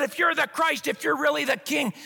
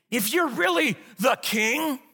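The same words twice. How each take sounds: First: Mocking thief. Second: Defiant challenge. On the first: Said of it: "hurled insults". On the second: Acted. Believer voiced defying God, slow defiant taunt. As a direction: fling it up as a fist-shake. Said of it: "defiantly shake our fists".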